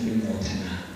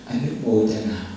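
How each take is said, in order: First: It is said with a Thai pronunciation. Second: It is said with an Indian pronunciation.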